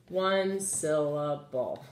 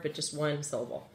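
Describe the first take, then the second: First: One syllable drawn out slowly; slowed for counting. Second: Said in the usual way. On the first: Shown as a demonstration. Teacher repeating the word count to pupils, slowed. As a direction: stretch One syllable out so they hear one beat.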